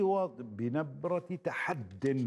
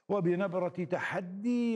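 First: The last word ends without a long ee sound. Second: The last word ends in a long ee sound. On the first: The speaker calls it right. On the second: The speaker calls it wrong.

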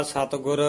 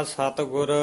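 The two takes are said the same way.

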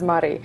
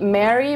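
First: The name is said with the local pronunciation. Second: The name is said like the English name Mary. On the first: This is how locals say it. The speaker calls it right. "we actually pronounce it as Mari" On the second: This is how outsiders usually say it. The speaker calls it wrong. "Many of you probably have seen it in call it Mary"

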